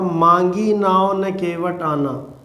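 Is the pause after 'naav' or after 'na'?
after naav. There is a pause after naav.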